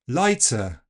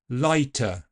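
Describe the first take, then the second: First: The t is released with a hissing ts sound. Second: The t is released with a puff of air. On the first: It sounds like southern English. "Affrication will give us ts" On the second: It sounds like standard English. "let's start by aspirating it"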